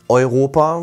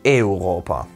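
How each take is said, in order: First: The opening vowels blend into one sound. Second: The opening vowels are spoken as two separate vowels. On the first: The speaker calls it wrong. "Also nicht Europa" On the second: The speaker calls it right. "werden die immer im Lateinischen getrennt gesprochen"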